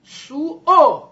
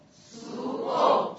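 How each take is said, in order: First: سو او cut hard and loud at the glottis; loud high glottal drill; loud glottal demo. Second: سو او breathed without voice, very slow; slow voiceless drill; whispered slow demo. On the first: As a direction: slam the stop in سو او. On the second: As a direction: whisper سو او drawn out. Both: Shown as a demonstration. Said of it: "تای حلقت بگو".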